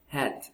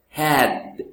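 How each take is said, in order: First: The word ends with a T sound. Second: The word ends with a D sound. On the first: The speaker calls it wrong. "many people tend to say like hat" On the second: The speaker calls it right. "No, it's had. And then the sound is stop"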